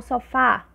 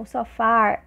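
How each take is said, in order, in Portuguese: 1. É dita de forma simples, sem R. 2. Ouve-se um R retroflexo a mais. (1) "a gente fala normal" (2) "Um R que é mais retroflexo"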